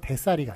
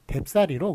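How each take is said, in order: First: No b sound comes before 'ssal'. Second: A b sound comes before 'ssal'. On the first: The speaker calls it wrong. "대쌀이가 아니라" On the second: The speaker calls it right. "뎁쌀이로 그렇게 비읍이 덧붙으니까"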